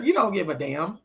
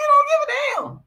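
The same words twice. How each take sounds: First: Said in the usual way. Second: Very high, loud squeal of disbelief; high-pitched derisive exclamation; incredulous squeal. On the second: Real, not acted. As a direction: shoot way up high and louder, scoffing. Incredulous repeat after laughing.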